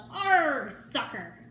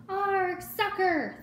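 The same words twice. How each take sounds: First: Pirate yell. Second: Much higher, loud group yell; crew yelling. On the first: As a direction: yell it as you kick. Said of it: "kicked the ball and yelled". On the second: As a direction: cheer it like a whole crew. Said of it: "the crew yelled". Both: A narrator's reading.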